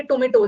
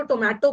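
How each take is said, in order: First: टोमेटो as "to-MAY-to"; tomato with "may". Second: टोमेटो as "to-MA-to"; tomato, other way. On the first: Teacher shows how some people say टोमेटो, with "may". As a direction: say टोमेटो with a long "ay" in the middle. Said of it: "एक बोलेंगे टोमेटो". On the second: Teacher shows how others say टोमेटो, with open "ma". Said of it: "एक तो टोमेटो बोलेंगे". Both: Shown as a demonstration.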